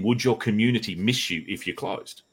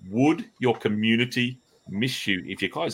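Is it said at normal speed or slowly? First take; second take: normal speed; slowly. First: It is said at a normal speed. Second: It is said slowly and deliberately.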